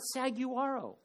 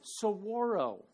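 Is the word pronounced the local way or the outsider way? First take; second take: outsider; local. First: The word is said the way outsiders say it. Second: The word is said the way locals say it. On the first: The speaker calls it wrong. "it's not saguaro" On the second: The speaker calls it right. "the proper way to say some words"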